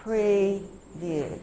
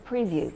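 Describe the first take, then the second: First: "Preview" split slowly into pre and view; teacher sounding out "Preview" in two parts; chunked word. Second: Said in the usual way. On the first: Shown as a demonstration. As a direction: hold "pre", pause, then "view" in "Preview". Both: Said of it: "So we're chunking".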